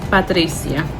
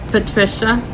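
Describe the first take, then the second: First: The name has a Spanish pronunciation. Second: The name has an English pronunciation. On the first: "or in Spanish" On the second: "in English"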